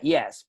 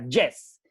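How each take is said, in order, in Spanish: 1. La palabra empieza con una y inglesa. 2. La palabra empieza con una y española. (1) "En inglés sería yes" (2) "yes en español. Así, pronunciando la Y"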